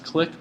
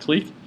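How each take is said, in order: First: The word rhymes with 'kick'. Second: The word rhymes with 'seek'. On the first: Other people say it this way. "some people pronounce this click" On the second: The speaker says it this way. "I I pronounce it clique"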